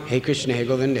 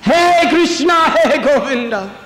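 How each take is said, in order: First: It is said calmly, without desperation. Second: It is cried out helplessly and desperately. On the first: The caller is not truly helpless. The speaker calls it wrong. "Not like that" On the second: The caller is utterly helpless and depends on rescue. The speaker calls it right. "Helpless. Like a child crying for its mother"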